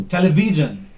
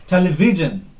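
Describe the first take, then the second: The two takes are said the same way.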